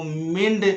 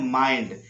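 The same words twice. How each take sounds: First: मिंड said with a short इ, the wrong way; teacher showing the wrong reading. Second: माइंड said with a full आई diphthong; teacher giving the correct reading; right reading. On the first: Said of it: "कभी मत पढ़ना". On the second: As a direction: say माइंड with a long आई. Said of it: "इसको पढ़ना है माइंड". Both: Shown as a demonstration.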